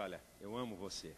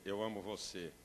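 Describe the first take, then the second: First: 1 tender sincere. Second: Said in the usual way. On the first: Shown as a demonstration. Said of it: "se eu disser". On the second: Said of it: "Ou então eu dizer".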